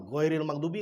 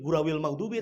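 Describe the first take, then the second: First: The first word is pronounced 'ghairil'. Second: The first word is pronounced 'gurawil'. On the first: The speaker calls it right. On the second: The speaker calls it wrong. "di Latin menjadi"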